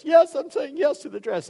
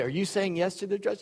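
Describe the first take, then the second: First: Mock-excited squeal, pitched way up; gushing bride. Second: Mock TV host's question, pitched up; posed question. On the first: Bride answering on dress show, hammed-up high excitement. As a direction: gush it in a high put-on bride voice. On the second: Host to bride on dress show, leading question. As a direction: ask it like a reality show host.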